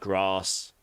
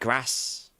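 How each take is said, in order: First: It is said in a southern English accent. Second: It is said in a northern English accent.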